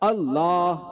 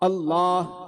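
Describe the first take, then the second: The two takes are said the same way.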